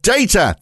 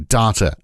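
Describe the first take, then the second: First: The word is said the British way. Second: The word is said the Australian way. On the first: "that's how it's said" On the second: "because they say data over there"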